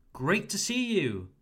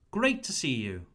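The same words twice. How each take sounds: First: "Great to see you" raised and cheerful; happy greeting. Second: Said in the usual way. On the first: Shown as a demonstration. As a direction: greet a client you are glad to see. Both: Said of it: "happy to see your client".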